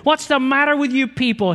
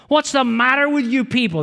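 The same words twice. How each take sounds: First: High, loud yell for the whole cabin to hear; an angry passenger shouting; loud angry outburst. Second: Put-on high, loud angry outburst at the old couple; furious yell acted out in the story; exploded outburst. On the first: Retold or imitated. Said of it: "he said loudly enough for the whole cabin to hear". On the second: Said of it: "That's how he exploded".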